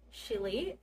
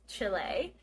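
First: It is pronounced the English way. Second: It is pronounced the Spanish way.

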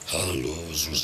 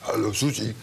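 First: The voice is pitched lower and deeper. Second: The voice is pitched fairly high, not deep. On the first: The speaker calls it right. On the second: The speaker calls it wrong.

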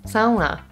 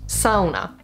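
First: It is said with a Finnish pronunciation. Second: It is said with a Finnish pronunciation.

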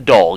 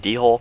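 First: The word is one syllable, like 'dole'. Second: The word starts with a separate 'dee' syllable. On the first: The speaker calls it right. "It's a doll, guys" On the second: The speaker calls it wrong. "People pronounce it wrong"

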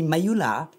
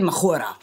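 First: The name is said with a Thai pronunciation. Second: The name is said with a Spanish pronunciation. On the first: "If you pronounce it Thai, then it would be Mayula" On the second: "Or Spanish"

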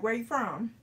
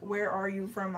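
First: The words are run together quickly. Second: Each word is said clearly and separately. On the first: "I'm like" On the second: "Instead of saying all each word"

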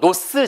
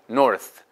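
First: The word ends with an s-like sound. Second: The word ends with a th sound. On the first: The speaker calls it wrong. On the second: The speaker calls it right.

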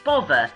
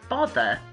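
First: The middle consonant is a v sound. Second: The middle consonant is a th sound.

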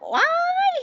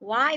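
First: It is said in a fussy, shouting voice. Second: It is said calmly, in a plain voice. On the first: The speaker calls it wrong. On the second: The speaker calls it right.

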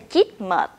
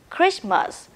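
First: The word starts without a clear 'kr' cluster. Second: The word starts with a clear 'kr' cluster. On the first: The speaker calls it wrong. "We don't say chitmut" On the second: The speaker calls it right. "Remember, kr, kr, krish"

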